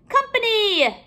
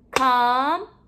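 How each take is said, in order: First: Said in the usual way. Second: COMPANY in three long, separate syllables; a beat on each syllable of COMPANY; clapped-out syllables. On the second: Shown as a demonstration. Teacher clapping out syllables for pupils, one beat at a time. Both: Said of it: "We're going to clap out the syllables".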